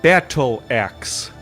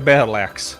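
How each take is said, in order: First: The phrase is said more slowly and carefully. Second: The phrase is said quickly and run together. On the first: The speaker calls it right. "There we go" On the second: The speaker calls it wrong. "I'm saying it too fast"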